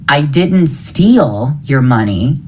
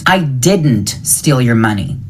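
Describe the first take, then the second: First: The stress falls on the word steal. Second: The stress falls on the word didn't. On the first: The money was taken another way, such as borrowing. "I borrowed it" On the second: The speaker denies doing it at all. "I didn't do it"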